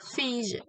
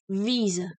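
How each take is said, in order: First: The first consonant is a voiceless F sound. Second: The first consonant is a voiced V sound. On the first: The speaker calls it wrong. "visa with the envoy S" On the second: The speaker calls it right. "I should have said visa. It's a voice V"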